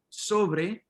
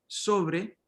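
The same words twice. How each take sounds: The two takes are said the same way.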